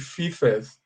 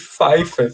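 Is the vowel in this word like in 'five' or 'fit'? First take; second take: fit; five. First: The vowel sounds like the one in fit. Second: The vowel sounds like the one in five. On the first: The speaker calls it right. "We say with the sound of E" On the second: The speaker calls it wrong. "we don't say fifth"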